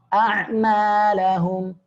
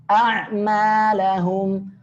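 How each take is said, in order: No difference in how they are said.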